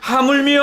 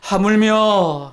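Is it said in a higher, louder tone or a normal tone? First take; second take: higher; normal. First: It is said in a raised, energetic tone. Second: It is said in a normal tone.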